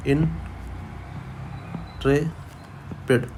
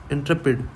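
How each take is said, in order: First: Intrepid split into slow separate syllables, almost whispered; syllable-by-syllable breakdown of Intrepid; broken into pieces. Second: Said in the usual way. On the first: Shown as a demonstration. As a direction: break Intrepid apart, in-tre-pid, very slowly. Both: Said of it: "इसको टुकड़े कर दो".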